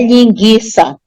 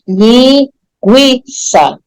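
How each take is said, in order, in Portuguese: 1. O U depois do G é silencioso. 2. O U depois do G é pronunciado. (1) "Não é linguiça" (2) "Você percebe bem o U"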